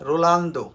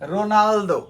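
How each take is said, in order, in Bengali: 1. L ধ্বনিটি N ধ্বনির আগে আসে। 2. N ধ্বনিটি L ধ্বনির আগে আসে। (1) "আমরা রোনালদোকে বলে থাকি কি রোলান্দো" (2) "শব্দটা হবে কি রোনালদো"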